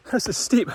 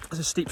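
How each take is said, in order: First: Said in the usual way. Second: Softer, winded "This is steep"; breathless. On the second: Real, not acted. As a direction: gasp it out between breaths. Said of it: "I'm starting to struggle to talk".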